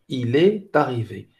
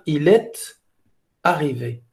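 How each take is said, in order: First: The words run together with no break. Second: There is a short break before 'arrivé'. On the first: "normalement, on doit, on a deux liaisons ici" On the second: "il fait une pause, entre il est, E S T ici, et arrivé"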